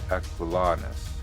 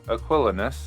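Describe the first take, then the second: First: The stress is on the third syllable. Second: The stress is on the second syllable. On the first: "this was the third" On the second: "I'm putting the emphasis usually on the second syllable"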